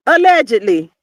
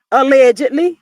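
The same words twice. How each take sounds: First: "Allegedly" with a firm falling tune. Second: "allegedly" with a sly upward tune; rising allegedly. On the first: Confirming the gossip, "Allegedly" falling. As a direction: settle "Allegedly" down flat. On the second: Hinting at the gossip, "allegedly" rising. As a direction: ask "allegedly" with a rise. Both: Shown as a demonstration.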